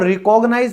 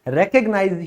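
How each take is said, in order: First: It begins with 'ri' followed by 'kog'. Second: It begins with 'rek' followed by 'g'. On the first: The speaker calls it wrong. "इसको रिकॉग्नाइज मत बोलिएगा" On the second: The speaker calls it right. "रेकग्नाइज ही इसकी correct pronunciation है"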